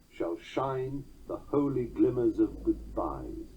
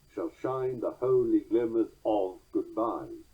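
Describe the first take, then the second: First: The word 'of' is passed over lightly. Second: The word 'of' is given heavy stress.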